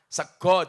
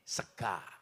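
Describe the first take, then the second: First: The final vowel is an O sound. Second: The final vowel is an A sound. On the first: "orang Jawa ke mayoritas menggunakan dialek O" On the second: "kalau orang Ngapak A"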